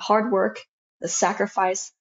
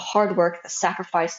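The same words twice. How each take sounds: First: The tone sounds happy and proud. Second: The tone sounds bitter and resentful. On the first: The effort paid off and was worth it. "I was really happy that I made it" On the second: The effort feels wasted given so little time. "Like I became a little bit bitter"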